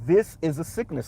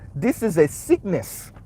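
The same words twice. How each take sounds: First: It is said in his usual accent. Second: It is said in a Haitian accent.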